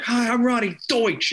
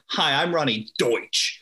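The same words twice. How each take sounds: First: High, mock pitchwoman catchphrase; Ronnie Deutsch. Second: Hard-hitting, slow commercial intro; Ronnie Deutsch. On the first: Kids stealing at the mall, high mock commercial catchphrase. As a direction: call it out high, hitting "Deutsch". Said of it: "it was what we would say". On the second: Retold or imitated. Imitating a lawyer closing her book on camera, hard-hitting. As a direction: lightly imitate a TV pitchwoman, landing hard on "Deutsch". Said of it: "it was just so hard hitting".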